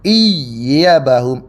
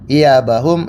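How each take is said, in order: First: The y sound is doubled and held. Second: The y sound is short and single. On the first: One particular reciter reads it this way. "iyanya ditasydidkan" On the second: Most reciters read it this way. "Yang kita baca seperti biasa"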